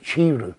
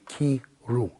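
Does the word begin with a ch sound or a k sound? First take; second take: ch sound; k sound. First: The word begins with a ch sound. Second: The word begins with a k sound. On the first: The speaker calls it wrong. "Some people say Chiru, but it's not" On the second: The speaker calls it right. "The correct pronunciation will always be Kiru"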